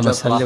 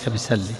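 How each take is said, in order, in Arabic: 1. تأتي بعد الميم فتحة. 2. تأتي بعد الميم كسرة. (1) "فتح الميم" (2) "بكسرها"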